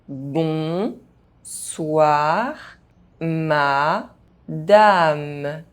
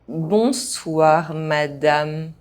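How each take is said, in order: First: The phrase is spoken very slowly. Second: The phrase is spoken at normal pace. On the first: "very slowly" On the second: "at a normal pace"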